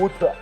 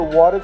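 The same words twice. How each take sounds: First: It is said in a British accent. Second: It is said in an American accent. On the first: "comment un Américain peut parler avec un accent britannique" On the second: "Au lieu de water"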